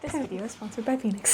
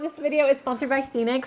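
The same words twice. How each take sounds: First: It is said in a put-on announcer voice. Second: It is said in an ordinary speaking voice.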